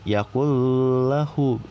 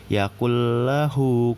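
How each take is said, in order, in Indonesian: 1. N-nya didengungkan dan ditahan sebelum l. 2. N menyatu penuh ke dalam l tanpa dengung. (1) "bukan yakullahu" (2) "nggak dengung"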